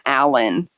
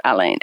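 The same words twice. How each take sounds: First: Alan said as AL-en, stress on the first syllable; the plain English Alan, first syllable stressed. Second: Alain said as a-LAIN, stress on the last syllable; French Alain, ending on a nasal vowel. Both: Shown as a demonstration. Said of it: "I called him Alain or Alan".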